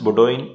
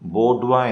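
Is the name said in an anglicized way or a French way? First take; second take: anglicized; French. First: It is said with all letters sounded, ending in -doyin. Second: It is said the French way, ending in -dwa.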